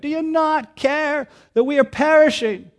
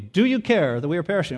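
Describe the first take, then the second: First: It is yelled loudly, as over a storm. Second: It is said calmly, like a polite discussion.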